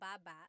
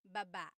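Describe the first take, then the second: First: The stress is on the first syllable. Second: The stress is on the second syllable. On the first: It means chin. "Emphasis is on the first syllable" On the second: It means to go down. "Emphasis is on the second syllable. That means to go down"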